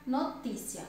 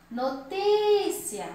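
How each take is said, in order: First: Said in the usual way. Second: NOTÍCIA with a long, high, loud TÍ; slow high call, swelling on the TÍ of NOTÍCIA. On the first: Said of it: "A sílaba mais forte". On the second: Shown as a demonstration. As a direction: call NOTÍCIA out, stretching the stressed TÍ. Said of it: "Então, é o ti".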